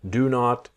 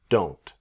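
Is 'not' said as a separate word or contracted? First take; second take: separate; contracted. First: Not is said as a separate full word. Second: Not is shortened and joined onto do.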